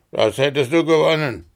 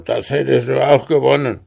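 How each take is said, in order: First: Ärgerlich und schnell, "du" betont und fallend; gekränkt, das "du" hervorheben; Betonung auf du. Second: Schnell, lauter, "auch" betont und fallend; widerwillig, das "auch" hervorheben; Betonung auf auch. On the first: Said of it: "Ärgerlich rief der". (schnell gesprochen mit Nachdruck auf "du") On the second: Riese gibt widerwillig zu. ("auch" stark betont und fallend) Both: Acted.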